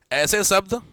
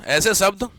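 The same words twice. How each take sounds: The two takes are said the same way.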